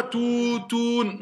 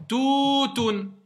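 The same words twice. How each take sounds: First: TOUTOUN with both syllables dragged out; wrong lengthening. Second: TOUTOUN with long first ou, short ending; correct vowel length. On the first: Teacher showing what not to say, both syllables drawn out. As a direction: stretch "tou" and "toun" alike, not stopping. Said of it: "Je dis pas toutoun". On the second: Teacher leading pupils to say it with her, long then short. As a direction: hold "Tou" high, then stop promptly on "toun". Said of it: "Dites bien avec moi". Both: Shown as a demonstration.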